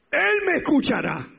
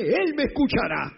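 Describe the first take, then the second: First: Even higher, louder repeat of "Él me escuchará"; climactic shout of faith. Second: Loud, higher declaration of faith; proclaiming the psalm. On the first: Preacher repeating the verse at the climax, ringing shout. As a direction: top the first line, shout it to the heavens. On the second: Preacher reciting the psalm verse, loud proclamation. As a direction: declare it with full force. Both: Acted. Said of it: "el Salmo setenta y siete".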